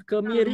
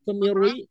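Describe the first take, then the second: First: "kemiri" dengan ri tipis. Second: "kemirui" dengan ri dibuat tebal; ri salah ditebalkan. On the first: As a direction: ucapkan "kemiri" ringan tanpa u. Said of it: "kemiri, bukan kemirui". (kemiri dibaca tipis) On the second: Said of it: "bukan kemirui". (contoh salah, ri ditebalkan) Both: Shown as a demonstration.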